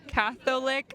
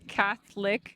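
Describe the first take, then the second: First: The middle 'o' vowel is clearly pronounced. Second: The middle 'o' vowel is dropped entirely. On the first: The speaker calls it wrong. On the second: The speaker calls it right.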